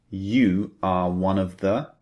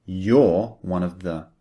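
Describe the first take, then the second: First: "You are" said as two full words, ju ar; full form you are. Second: "You're" run together as one syllable, yor; contracted you're. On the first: Teacher giving the full form first: "You are" said unshortened. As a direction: spell out "You are" fully, both words clear. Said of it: "we abbreviate". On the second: Teacher showing the spoken form: "You're" contracted to yor. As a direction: shorten "You're" into a single quick yor. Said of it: "We say". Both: Shown as a demonstration.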